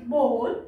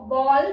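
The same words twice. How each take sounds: First: "बोल" with a long rounded O, rhyming with roll. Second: "बॉल" with an open aw, like the ball for playing; open-vowelled "बॉल"; short open O. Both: Shown as a demonstration. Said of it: "बॉल खेलने वाला या बाउल नहीं".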